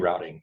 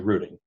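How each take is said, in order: First: It is said in a non-Canadian accent. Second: It is said in a Canadian accent.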